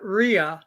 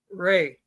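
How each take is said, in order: First: The name is said with two syllables. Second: The name is said with one syllable. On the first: This is not how they say the name. The speaker calls it wrong. "not Rhea" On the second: This is how they say the name. The speaker calls it right. "they pronounce it Ray"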